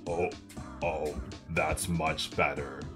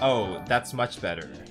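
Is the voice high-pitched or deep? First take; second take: deep; high-pitched. First: It is said in a very deep voice. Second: It is said in a high-pitched voice.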